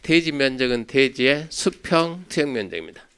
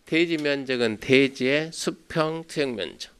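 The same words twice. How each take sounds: First: Said in the usual way. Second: 대지 면적은 대지의 수평 투영 면적 said slowly, word by word; slow dictation pace. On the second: Shown as a demonstration. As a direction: spell it out slowly for note-taking.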